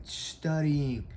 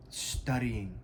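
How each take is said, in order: First: Studying said higher with weight; stress on studying. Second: Said in the usual way. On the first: Shown as a demonstration. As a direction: lean into studying to correct yourself. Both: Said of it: "I mean".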